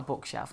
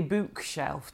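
First: Said in the usual way. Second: "bookshelf" with a long oo as in boot; mum's northern bookshelf. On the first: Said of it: "to me that's a bookshelf". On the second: Shown as a demonstration. Showing her mum's way, "bookshelf" with long oo. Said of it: "that'd be a bookshelf to my mum".

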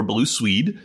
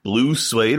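First: Swede with a long ee; "Swede" with an ee, rising at the end; pronounced as spelled. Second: Suede said like "swayed"; "Suede" rhyming with made; usual pronunciation. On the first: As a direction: say "Swede" slowly, rhyming with need. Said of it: "but S W E D". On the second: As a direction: say "Suede" slowly with an ay vowel. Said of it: "I've always called him Blue Suede". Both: Shown as a demonstration.

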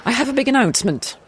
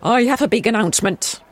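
First: Faster, higher royal address; king voice. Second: King voice. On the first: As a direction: declare it like a king. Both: Shown as a demonstration. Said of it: "I'll do that bit again".

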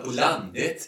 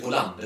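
First: "landet" lifted at the end in Östergötland dialect; rising Östergötland lilt on "landet"; Östergötland stress. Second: Said in the usual way. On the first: Shown as a demonstration. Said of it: "väldigt lustig betoning i Östergötland". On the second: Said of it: "De säger inte".

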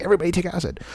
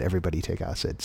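First: Higher, excited quoted exclamation; exclaiming, imitating Leary. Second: Softer, faster, embarrassed; quiet sheepish repeat. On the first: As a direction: call it out like a giddy guru. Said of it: "he's like". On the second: Retold or imitated. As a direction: mumble it back sheepishly. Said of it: "I just said".

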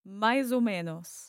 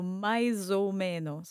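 First: "mais ou menos" joined up, a little quicker; learner's smoother "maizo menos"; quicker attempt. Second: "mais ou menos" slowly as "mai-zo menos"; careful, slow "mai-zo menos"; linked "zo" sound. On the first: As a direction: run "mais ou menos" together as one phrase. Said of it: "And try quickly". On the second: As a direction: run "mais" into "ou" with a Z. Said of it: "becomes a zo". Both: Shown as a demonstration.

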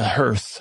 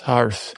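First: "hearth" with the vowel of "her"; first pronunciation. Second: "hearth" with an open "ar" vowel; corrected pronunciation. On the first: Storyteller recalling a threat to Cinderella, "hearth" said like "hurth". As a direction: say "hearth" to rhyme with "earth". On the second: Storyteller correcting the word, "hearth" said with an "ar". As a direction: say "hearth" as "harth". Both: Real, not acted.

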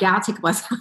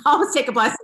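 First: Said in the usual way. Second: High, bubbling with laughter; laughing aside. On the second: Real, not acted. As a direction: chuckle it out as a joke. Repeats the line laughing.

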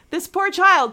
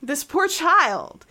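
First: Pitying, louder. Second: Pitying. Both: Real, not acted.

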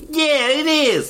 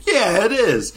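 First: High, hammed-up New York accent; exaggerated New York accent. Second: A first try at a New York accent, high; a light New York accent, tossed off; hint of a New York accent. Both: Shown as a demonstration. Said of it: "That was my New York accent".

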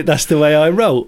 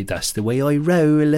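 First: Said in the usual way. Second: Put-on playful Bristol accent, higher on the line; put-on Bristol twang. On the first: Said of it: "Or a guy that I once went on". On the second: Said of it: "Steve from Bristol, he'd say".

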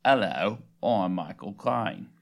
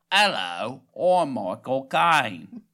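First: Low, drawn-out celebrity impression; Michael Caine. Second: More nasal, very drawn-out celebrity impression; Michael Caine. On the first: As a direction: deepen it and stretch the vowels. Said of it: "That was not impressive". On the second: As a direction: push it through the nose and stretch each word. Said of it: "go a little more nasally".

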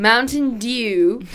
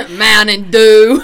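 First: Slow, loud, stretched-out English "dew"; drawn-out British newsreader announcing Mountain Dew; announcer-like. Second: Much louder, slow, booming announcement; war announcer. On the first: English podcaster trying out saying dew, announcer-like. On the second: Friend laughing through a second go at Mountain Dew, war announcer. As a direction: belt it out slowly like a grave announcer. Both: Shown as a demonstration. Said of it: "You sound like you're announcing the war".

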